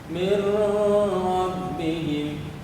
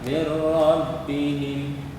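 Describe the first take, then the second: First: The n sound is kept before the r. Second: The n sound merges fully into the r. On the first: The speaker calls it wrong. "Salah bacanya itu" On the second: The speaker calls it right. "Yang benar adalah"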